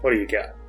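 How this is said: It is said with flat, low energy. The character has lost interest. "a little less enthusiastic"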